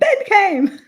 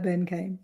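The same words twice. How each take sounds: First: It is shouted loudly with excitement. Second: It is said flatly, without any excitement. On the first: The speaker calls it right. "But it's got to be shouted. It's the excitement" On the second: The speaker calls it wrong. "It can't just be like"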